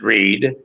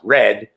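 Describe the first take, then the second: First: The vowel is long, as in 'reed'. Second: The vowel is short, as in 'red'. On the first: The speaker calls it wrong. "I pronounced it Reed. Um, but I was corrected" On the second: The speaker calls it right. "It's pronounced Red"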